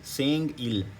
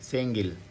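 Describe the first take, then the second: First: The two syllables are said slowly and apart. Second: The two syllables run quickly together as one. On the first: "आराम से पढ़ेंगे तो क्या बनेगा सेंग और ये इल" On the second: "तेज़ी से जो कोरियन पढ़ेगा वो क्या बोलेगा सेंगिल"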